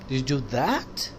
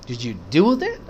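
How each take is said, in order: First: The stress is on the word that. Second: The stress is on the word do. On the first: Asking whether that specific thing was done. "वो किया आपने" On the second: Asking whether the act was really carried out. "किया वाकई"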